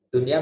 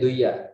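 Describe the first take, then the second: First: The n sound is kept clear. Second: The n sound is merged away. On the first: It keeps the meaning of the word for world. The speaker calls it right. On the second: It is no longer the word for world. The speaker calls it wrong.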